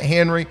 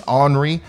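First: The name starts with an H sound. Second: The name starts without an H sound. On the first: The speaker calls it wrong. "So I'm calling it Henri. All right, I know that's wrong" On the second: The speaker calls it right. "the correct pronunciation here is Henri. The H is silent"

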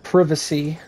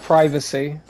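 First: The word is said with a British pronunciation. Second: The word is said with an American pronunciation. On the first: "she's very British. She said privacy" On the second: "instead of privacy"

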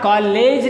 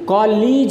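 First: The second vowel sounds like 'eh'. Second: The second vowel sounds like 'ee'. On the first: The speaker calls it wrong. "कॉलेज नहीं होता" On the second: The speaker calls it right. "बल्कि कॉलीज होता है"

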